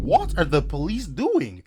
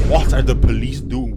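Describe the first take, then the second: First: Slow, high-pitched incredulous question; exasperated disbelief. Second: Loud exasperated demand; outraged yell. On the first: Narrator repeats his question, slow high exasperation. Outraged reaction, repeated slower. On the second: Narrator reacting to real-life danger, loud outrage. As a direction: yell it in disbelief. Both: Pretend.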